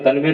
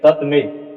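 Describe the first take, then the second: First: The sounds are merged into one joined word. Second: The sounds are kept apart as two parts. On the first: The speaker calls it wrong. "तन्मे नहीं" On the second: The speaker calls it right.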